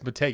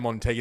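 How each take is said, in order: First: No n sound comes before the t. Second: An n sound comes before the t. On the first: The speaker calls it right. "it's Motegi" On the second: The speaker calls it wrong. "sometimes you say Montegi"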